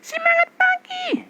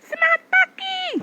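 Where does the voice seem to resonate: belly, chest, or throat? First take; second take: throat; throat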